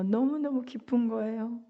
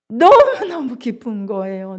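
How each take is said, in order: First: 너무너무 said again much softer, almost hushed; preacher echoing the father's joy quietly; hushed repeat. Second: 너무너무 pressed out, louder, full of joy; preacher proclaiming the father's joy; emphatic joy. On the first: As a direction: drop to a soft, intimate echo. Repeated line dropped soft. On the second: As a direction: proclaim it with force. Preacher repeats line, then softly. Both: Acted.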